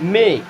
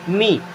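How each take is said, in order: First: The vowel is a short eh sound. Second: The vowel is a long ee sound. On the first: The speaker calls it wrong. "बारह खड़ी में देखेंगे ना तो एम ई को पढ़ते हैं में" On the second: The speaker calls it right. "बड़ी ई की मात्रा की तरह"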